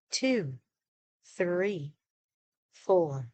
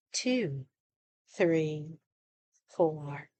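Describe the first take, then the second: No difference in how they are said.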